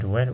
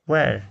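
First: Where said with a gliding air sound, slow; pron: where, correct version. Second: Where with a flat vowel; where said the way to avoid; pron: where, wrong version. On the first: Teacher corrects students on where, gliding vowel. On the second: Teacher shows students the wrong where, flat vowel. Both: Shown as a demonstration. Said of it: "Not where, where?".

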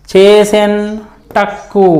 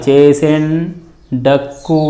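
First: చేసెన్ టక్కు with an unvoiced retroflex t, words set apart; pause, then టక్కు with unvoiced ట; hard ట sound. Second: చేసెన్ డక్కు with a voiced retroflex d, pitched lower; pause, then డక్కు with voiced డ; soft డ sound. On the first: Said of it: "టా ఉంటే". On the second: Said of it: "డాగా మారాలి". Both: Shown as a demonstration.

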